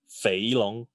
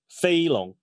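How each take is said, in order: First: The first syllable carries the tone for 'fat'. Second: The first syllable carries the tone for 'flying'. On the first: The name means fat dragon. "and then pronounce it like fat dragon" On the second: The name means flying dragon. "Pronounce it like flying dragon"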